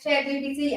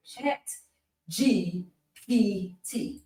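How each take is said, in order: First: "Chat G P T" run together quickly in one go; too fast. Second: "Chat G P T" said slowly, a pause between each piece; slow, separated letters. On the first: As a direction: rattle off "Chat G P T" like a tongue twister. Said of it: "if you say it too fast". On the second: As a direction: spell out "Chat... G... P... T" carefully and softly. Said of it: "Can't say it that slow". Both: Shown as a demonstration.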